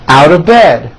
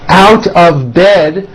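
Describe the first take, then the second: First: The words are squeezed together into a reduced form. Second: Each word is said separately and in full.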